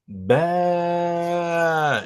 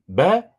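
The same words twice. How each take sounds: First: The vowel is drawn out long. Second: The vowel is short. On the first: "il faut allonger le son" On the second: "c'est plus ba"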